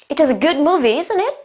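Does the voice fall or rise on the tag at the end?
rise. The voice rises on the final tag. The speaker really asks for the listener's view.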